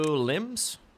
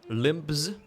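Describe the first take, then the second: First: It is said without a B sound. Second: It is said with a B sound.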